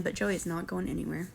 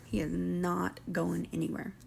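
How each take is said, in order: First: Said in the usual way. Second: Slow, softer, each word "He is not going anywhere" leaned on; slow emphatic repeat. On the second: Real, not acted. Vlogger insisting Joey won't leave, slow emphatic repeat. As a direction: drag it out, driving the point home.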